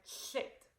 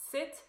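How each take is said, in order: First: "shit" with a slushy sh for the s. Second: Said in the usual way. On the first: Shown as a demonstration. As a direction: say "shit" as a lateral-lisped sit. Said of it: "it would sound like shit". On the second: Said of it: "instead of sounding like sit".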